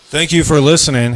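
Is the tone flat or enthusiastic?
enthusiastic. It is said in a more enthusiastic tone.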